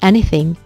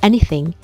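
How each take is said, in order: First: The th sound is light and brief. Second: The same.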